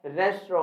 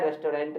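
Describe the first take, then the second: First: "रेस्टोरेंट" as res-tro, silent final nt; preferred pronunciation. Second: "रेस्टोरेंट" in three parts, res-to-rent; common mispronunciation. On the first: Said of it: "होता है". ("रेस्टोरेंट" को 'रेस्ट्रो' बोलें) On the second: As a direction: sound a full "to" and "rent" in "रेस्टोरेंट". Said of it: "नहीं होता". ("रेस्टोरेंट" को रेस-टो-रेंट बोलें) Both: Shown as a demonstration.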